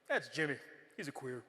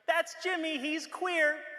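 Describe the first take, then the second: First: It is said in a hostile, contemptuous tone. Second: It is said in a friendly, accepting tone.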